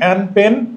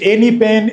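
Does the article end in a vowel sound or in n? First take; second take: n; vowel. First: The article ends directly on the n sound. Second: The article ends with an extra vowel sound.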